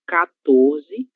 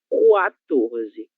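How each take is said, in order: First: The word begins with a plain 'ka' sound. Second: The word begins with a rounded 'kwa' sound. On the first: "A primeira será" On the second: "a segunda será"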